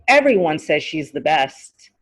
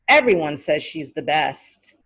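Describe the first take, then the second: No difference in how they are said.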